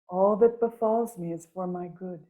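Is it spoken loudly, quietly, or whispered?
quietly. It is spoken softly and quietly.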